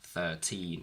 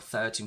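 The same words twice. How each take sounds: First: The stress is on the second syllable. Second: The stress is on the first syllable. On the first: The speaker calls it wrong. "instead of saying" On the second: The speaker calls it right. "we move the stress to the front"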